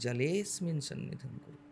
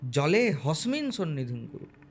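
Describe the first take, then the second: First: No h sound is heard before 'smin'. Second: An h sound is inserted before 'smin'. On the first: The speaker calls it right. "জলে হসমিন নয়, ওটা হকার নয়" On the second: The speaker calls it wrong. "অধিকাংশ লোক হকার উচ্চারণ করে পড়ে"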